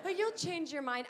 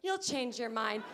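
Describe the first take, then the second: First: High, sing-song mock of a know-it-all; mock condescending. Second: Drawn-out slow smug repeat; slow mock. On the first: To people judging her choice, mock sing-song condescension. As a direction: parrot the smug advice back. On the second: Mocking the advice she keeps hearing, slow and smug. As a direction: say it slowly like an obvious truth. Same line slowed for emphasis.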